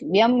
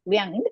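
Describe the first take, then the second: First: The syllable ends with a closed-lip m sound. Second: The syllable ends with a nasal, not m. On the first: "Now vyam to remove the makara" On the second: "it will become vyang"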